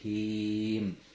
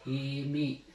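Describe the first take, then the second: First: The vowel is held long, ending on m. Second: The vowel is short, followed by a final i. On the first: The reader stops on this word. "bisa lebih dari dua harokat, tiga atau lebih" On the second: The reader continues without stopping. "dua harokat"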